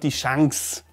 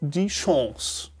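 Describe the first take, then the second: First: The word is pronounced in a non-French way. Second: The word is pronounced in a French-like way. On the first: The speaker calls it wrong. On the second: The speaker calls it right. "closer to the French pronunciation"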